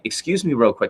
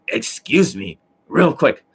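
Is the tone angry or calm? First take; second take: calm; angry. First: It is said in a calm, polite tone. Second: It is said in an angry, hostile tone. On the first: The person is politely asking a question. "It didn't sound like" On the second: The person is resentful while speaking. "It sounded angry when he did the exercises"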